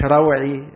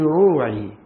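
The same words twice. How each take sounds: First: The first vowel is an open 'a' sound. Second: The first vowel is a rounded 'u' sound. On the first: It means my fear. The speaker calls it wrong. "مش روعي، روعي يعني خوفي" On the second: It means my mind or heart. The speaker calls it right. "ما تفتحش الرع، في روعي"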